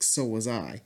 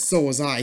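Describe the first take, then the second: First: It is said in a sad, heartbroken tone. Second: It is said in a slightly angry tone. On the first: The speaker is grieving a lost friendship. "you hear the sadness in his voice" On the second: The speaker is resentful about a betrayal. "he sounded a little angry"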